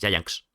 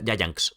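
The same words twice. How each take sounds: First: The word ends in a throaty h-like sound. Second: The word ends in an s sound. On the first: "pero en vez de acabar en S, en X, porque acaba en X" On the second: "como antes con ese final"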